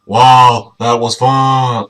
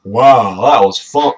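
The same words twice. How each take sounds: First: Loud slowed wow, drawn out; slow loud cheer. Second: A bright loud wow; excited dino cheer. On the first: Retrying the dino's line with a slower cheer. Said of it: "Ah, fuck, that's not it". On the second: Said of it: "No, wait, fuck". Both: Shown as a demonstration.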